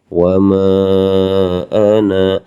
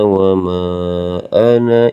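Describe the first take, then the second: First: The final vowel of ana is held long. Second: The final vowel of ana is kept short. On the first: The reciter stops after this word. "Kalau wakof dibacanya panjang" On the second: The reciter continues into the next words. "Kalau wasol meneruskan dibacanya pen pendek"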